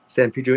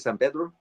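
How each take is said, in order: First: The name is said with an English pronunciation. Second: The name is said with a Spanish pronunciation. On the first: This is how the locals say it. "where they say San Pedro" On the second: This is how a Spanish speaker says it. "the way I would pronounce it, ... since I have a Spanish tongue"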